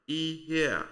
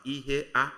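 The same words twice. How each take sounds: First: Ihea drawn out as one joined word, final A audible; "ihea" slow and smooth, no break before the A; syllables run together. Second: "ihea" broken into ihe, then a separate A; mispronounced "ihea", the A standing apart as its own word; A split off. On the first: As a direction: say "ihea" high and joined, the A gliding out of the E. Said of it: "The two are pronounced together". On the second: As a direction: say "ihea" with a break before the final A. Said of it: "You don't pronounce it as ihea". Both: Shown as a demonstration.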